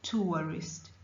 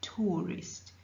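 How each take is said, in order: First: The first vowel glides with a w-like sound. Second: The first vowel is one long sound. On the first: "You bring in a wa sound" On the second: "They make it a longer sound"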